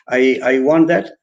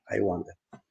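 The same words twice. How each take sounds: First: Said in the usual way. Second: "I want that" said flat and soft, falling at the end; a level, matter-of-fact "I want that" that drops away; flat delivery. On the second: Shown as a demonstration. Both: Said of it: "it's flat".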